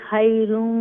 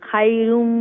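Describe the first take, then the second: No difference in how they are said.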